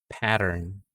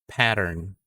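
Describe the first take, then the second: Both takes have the same delivery.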